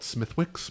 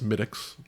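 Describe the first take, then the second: First: The th and w sounds are pronounced. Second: The th and w sounds are silent. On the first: The speaker calls it wrong. "A lot of people will call it Smithwick's because that's how it smelled" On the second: The speaker calls it right. "but it's it's Smittix"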